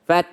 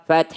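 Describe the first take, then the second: No difference in how they are said.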